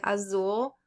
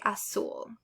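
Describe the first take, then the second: First: "azul" said as "a-zool" with voiced Z; buzzed English Z. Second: "azul" said as "a-sool" with voiceless S. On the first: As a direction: buzz the Z in "azul". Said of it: "rather than saying azul". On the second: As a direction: replace the Z in "azul" with S. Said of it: "Z is pronounced like an S". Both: Shown as a demonstration.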